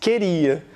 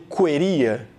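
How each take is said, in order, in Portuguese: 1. O u depois do q é mudo. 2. O u depois do q é pronunciado. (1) "Não, você diz queria. Como esse U não teve som" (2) "Aqui o U foi pronunciado? Você está dizendo queria?"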